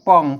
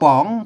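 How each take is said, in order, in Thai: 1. พยางค์นี้ออกเสียงด้วยเสียงต่ำ 2. พยางค์นี้ออกเสียงด้วยเสียงขึ้น (1) "เสียงเอก" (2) "จัตวา"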